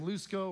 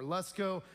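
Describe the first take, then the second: First: Lusko said as LOOS-ko; first vowel of Lusko as in "loose"; long OO pronunciation. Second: Lusko said as LUSS-ko; first vowel of Lusko as in "luck"; short U pronunciation. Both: Shown as a demonstration. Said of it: "if you pronounce his name".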